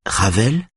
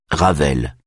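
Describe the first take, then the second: First: Ravel? raised higher with a questioning rise; incredulous echo. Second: Said in the usual way. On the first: A narrator's reading. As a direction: throw Ravel back in disbelief. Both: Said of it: "Greta echoes incredulously".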